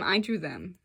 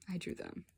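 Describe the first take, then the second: First: Said in the usual way. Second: I drew them repeated almost whispered; soft echo. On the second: Real, not acted. Telling viewers she drew the girls, hushed echo.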